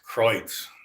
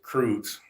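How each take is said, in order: First: The name is said the original German way. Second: The name is said the later Americanized way. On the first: This is how the family name was originally said. The speaker calls it right. "the last name back then was pronounced Kreutz" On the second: This is how the family says the name today. The speaker calls it wrong. "now we pronounce it Kreutz"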